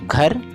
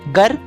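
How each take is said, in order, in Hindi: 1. पहला व्यंजन महाप्राण बोला जाता है। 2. पहला व्यंजन अल्पप्राण बोला जाता है।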